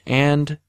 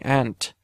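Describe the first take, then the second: First: The final consonant is voiced, plain English. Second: The final consonant is devoiced, German-accented.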